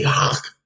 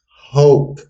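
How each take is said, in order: First: It is said with an 'aw' vowel, like hawk. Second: It is said with an 'oh' vowel, like hoke. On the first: The speaker calls it wrong. "So they don't so they don't say Hawk. Like what the fuck is Hawk?" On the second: The speaker calls it right. "The pronunciation is Hoke"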